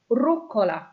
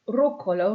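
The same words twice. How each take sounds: First: "Rucola" as ROO-ko-la, falling; model pronunciation. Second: "Rucola" as ROO-ko-la, rising; model pronunciation. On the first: Teacher modelling "Rucola" with a fall, first syllable stressed. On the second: Teacher repeating "Rucola" with a rising tune. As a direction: repeat "Rucola" with a lift at the end. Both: Shown as a demonstration. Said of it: "let's go to the last one".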